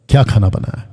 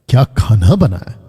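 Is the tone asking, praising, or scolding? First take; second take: asking; praising. First: It sounds like a plain, curious question. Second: It sounds admiring and full of praise. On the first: Someone is asking what was cooked. "एक कि पूछ रहा है" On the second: The food is being praised. "ये हो गया तारीफ"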